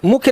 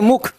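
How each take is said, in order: First: "मुख्य" with a "y" glide after the kh; "मुख्य" ending in a -khy cluster; wrong word form. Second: "मुख" ending on a plain aspirated kh; "मुख" closed on kh, without any glide; corrected word form. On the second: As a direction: say "मुख" as one syllable, mukh, with no ya. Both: Shown as a demonstration. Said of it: "मुख्य नहीं, मुख".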